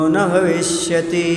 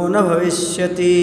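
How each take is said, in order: The two takes are said the same way.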